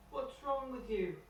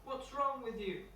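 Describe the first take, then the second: First: Put-on a much higher childlike voice, drawn out slowly; slow little boy Tom. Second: Put-on a much higher, childlike voice, puzzled; little boy Tom. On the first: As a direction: say it high and slow, bewildered. Retake of Tom's line. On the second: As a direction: pitch up high to play the small boy. Tom answers the bear.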